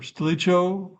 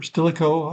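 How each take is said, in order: First: Stilicho with a CH as in church; alternative pronunciation. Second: Stilicho with a hard K; Stilicho, the CH said like K, ending "ko"; alternative pronunciation. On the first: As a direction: say Stilicho as sti-LEE-cho. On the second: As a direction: say Stilicho as STIL-i-ko. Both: Shown as a demonstration. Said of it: "however it's pronounced".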